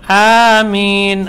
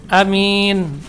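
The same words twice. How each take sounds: First: The first vowel is long. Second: The first vowel is short. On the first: Oh God, grant it. The speaker calls it right. "A-nya panjang" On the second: Safe. The speaker calls it wrong. "A-nya tidak dipanjangkan"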